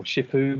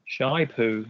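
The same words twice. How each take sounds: First: "Shipoo" with the first syllable like ship without the p; "Shipoo" pronounced SHIH-poo; short I in first syllable. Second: "Shy poo" with the first syllable like shy; "Shy poo" pronounced SHY-poo; long I in first syllable. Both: Shown as a demonstration. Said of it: "Or Shipoo, maybe".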